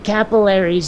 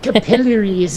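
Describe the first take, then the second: First: It is said in the speaker's usual accent. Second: It is said in another country's accent. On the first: "instead of capillaries" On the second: "saying it capillaries instead of"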